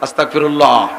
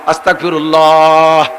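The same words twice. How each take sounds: First: The word is said short and quick. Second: The word is drawn out the longest.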